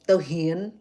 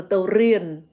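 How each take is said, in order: First: "tao hien" with H in place of R, slow; Phnom Penh accent. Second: "tao rien" with a clear R, louder; pronounced as written. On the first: Showing listeners how Phnom Penh changes letters, H pronunciation. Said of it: "They literally change the letters". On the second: Showing listeners the word before letters change, clear R pronunciation. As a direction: say "tao rien" with a strong R starting "rien". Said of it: "change the letter L to, um, letter R to letter H". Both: Shown as a demonstration.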